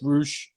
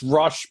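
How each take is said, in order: First: The vowel sounds like 'oo' in 'boot'. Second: The vowel sounds like 'uh' in 'bus'. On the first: This is how the speaker insists it goes. The speaker calls it right. "but it's Roosh" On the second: This is what others call him. The speaker calls it wrong. "they call him it's Rush"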